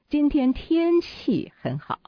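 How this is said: The word 天气 is stressed. The focus is on the weather. "那重点又在天气了"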